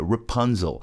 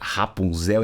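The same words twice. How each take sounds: First: The name is pronounced with English sounds. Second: The name is pronounced with Portuguese sounds. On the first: "mas olha só a pronúncia" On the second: "que é Rapunzel em português"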